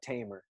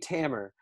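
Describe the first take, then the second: First: The first vowel sounds like in 'tame'. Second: The first vowel sounds like in 'ham'. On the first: The speaker calls it wrong. "phonetically it looks like Tamer" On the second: The speaker calls it right. "It's actually Tamer, like a hammer but with a T"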